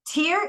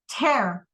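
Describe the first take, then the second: First: The word rhymes with 'here'. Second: The word rhymes with 'care'. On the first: It means a drop from the eye. "Tear is air mata" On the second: It means to rip something. "Tear is buat sobek"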